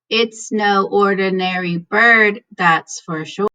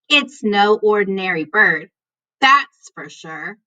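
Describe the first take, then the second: First: It is read in a flat, dull voice. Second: It is read in a lively, expressive voice. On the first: The speaker calls it wrong. "Was that pretty boring?" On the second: The speaker calls it right. "am I now using my teacher voice"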